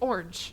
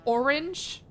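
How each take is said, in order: First: The word is said with one syllable. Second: The word is said with two syllables.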